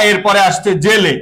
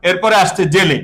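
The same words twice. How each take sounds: The two takes are said the same way.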